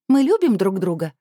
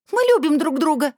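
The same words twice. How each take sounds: First: Plain declaration. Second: High, loud desperate cry; teen screaming her love in defiance; shouting. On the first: Girl declares love. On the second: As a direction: scream it at your aunt. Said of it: "закричала Анжелика". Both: Acted.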